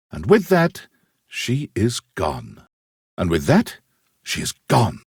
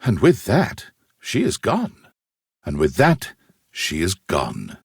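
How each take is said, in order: Both takes have the same delivery.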